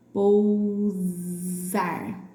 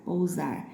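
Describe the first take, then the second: First: Pousar very slowly with a long buzzing Z; stretched Z sound. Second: Said in the usual way. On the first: Shown as a demonstration. Teacher showing the S she marked, Pousar with a long Z. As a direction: hold the Z in Pousar before "ar". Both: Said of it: "no S com som de Z".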